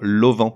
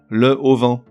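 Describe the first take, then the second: First: The article is elided and linked to the noun. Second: The article is said fully, without elision. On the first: The speaker calls it right. "il faut dire" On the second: The speaker calls it wrong. "on lui invente un H aspiré, qui n'existe pas"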